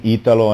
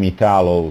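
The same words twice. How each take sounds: First: The name is said with an Italian pronunciation. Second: The name is said with an English pronunciation. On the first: "In Italian" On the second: "And in English"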